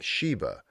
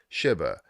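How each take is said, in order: First: The first syllable sounds like 'she'. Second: The first syllable does not sound like 'she'. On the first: The speaker calls it wrong. "they're thinking she, like um, S H E E" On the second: The speaker calls it right. "instead of"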